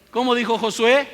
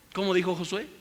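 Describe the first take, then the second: First: "¿Cómo dijo Josué?" much higher and louder; loud rhetorical call. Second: Said in the usual way. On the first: Real, not acted. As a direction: call it out to the congregation. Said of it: "repeated question, loud take". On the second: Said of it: "repeated question, first take".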